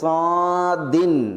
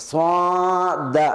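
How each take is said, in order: First: It ends with a short i plus n. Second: It ends with a short a vowel. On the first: "സ്വാദിൻ തൻവീനോടുകൂടി" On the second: "ചിലർ അതിനെ സ്വാദ ആ നിലയ്ക്ക്"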